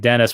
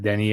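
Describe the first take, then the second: First: The name ends with a clear s sound. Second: The name ends on a vowel, no s. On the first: The speaker calls it wrong. "it's not like Dennis, but that's how it looks" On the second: The speaker calls it right. "It's like Denny"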